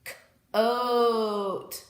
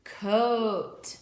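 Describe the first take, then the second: First: "c-oat" split into k and a long stretched oh; sounded out long O. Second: Said in the usual way. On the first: Shown as a demonstration. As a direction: stretch the oh in "c-oat" after a separate k. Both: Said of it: "you are going to hear the long O sound".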